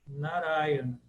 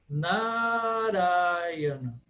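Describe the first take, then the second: First: The stress falls on the third-to-last syllable. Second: Two vowels are held long, two are short. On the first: This is the modern way of saying it. "pronúncia contemporânea da palavra é Narayana, Narayana, como se fosse proparoxítona" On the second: This is the ancient, sung way of saying it. "no sânscrito clássico não é proparoxítona, é duas longas e duas breves"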